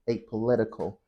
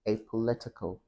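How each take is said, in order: First: It is said in an American accent. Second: It is said in a British accent. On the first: "in American English, it would be apolitical" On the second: "In British English, apolitical"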